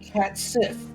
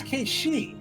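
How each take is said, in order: First: The name ends with a hard 'sith' sound. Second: The name ends with a soft 'shee' sound. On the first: The speaker calls it wrong. "the developers came out and said" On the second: The speaker calls it right. "no, it's"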